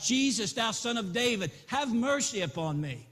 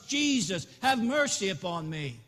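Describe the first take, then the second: First: A raised plea to Jesus; a blind beggar's first call for mercy; first cry. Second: A loud, raised cry for mercy; a blind beggar shouting louder still to Jesus. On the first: Blind beggar's first call to Jesus, a raised plea. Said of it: "began to cry out". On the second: Blind beggar shouts louder over the crowd to Jesus, raised cry. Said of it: "He cried out even louder". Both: Acted.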